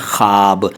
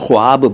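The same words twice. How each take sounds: First: No w sound follows the first consonant. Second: A w sound follows the first consonant. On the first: This is how the word is spoken. "बोलते हैं" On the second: This is how the word is written. "लिखते हैं"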